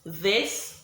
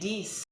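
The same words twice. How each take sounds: First: The th is voiced with the tongue between teeth. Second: The th is said as a stop sound.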